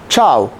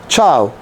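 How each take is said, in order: No difference in how they are said.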